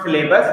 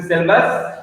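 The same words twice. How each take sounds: First: "syllabus" with a long ay in the middle; mispronounced syllabus. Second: "syllabus" with the middle vowel squeezed short, no ay; corrected syllabus pronunciation. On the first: Teacher shows students the wrong syllabus, mispronounced as sil-LAY-bus. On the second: Teacher corrects students' word, "syllabus" said as SIL-bus. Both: Shown as a demonstration. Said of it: "The correct pronunciation is".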